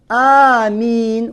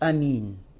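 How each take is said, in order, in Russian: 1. Первый гласный произносится долго. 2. Первый гласный произносится коротко.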